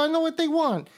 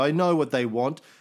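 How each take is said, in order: First: It is said in a put-on gangster-style voice. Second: It is said in the speaker's normal voice. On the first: "Maybe that's my Tito voice" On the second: "I got to come up with a Tito voice"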